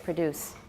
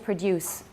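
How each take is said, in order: First: No y-glide comes before the u vowel. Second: A y-glide comes before the u vowel. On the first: The speaker calls it right. "We say produce. ... In American is usually just alveolar plus U" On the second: The speaker calls it wrong. "We don't say produce"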